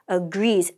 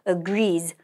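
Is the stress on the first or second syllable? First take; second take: second; second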